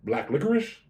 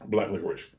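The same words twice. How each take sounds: First: Unsure rising tone on licorice; questioning tune. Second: Said in the usual way. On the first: Real, not acted. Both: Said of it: "I know I said it as a question".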